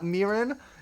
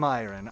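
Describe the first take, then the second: First: The first syllable sounds like 'meer'. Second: The first syllable sounds like 'my'. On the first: The speaker calls it wrong. "Not Mirin?" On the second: The speaker calls it right. "it's pronounced like admiring, but only the Myron part"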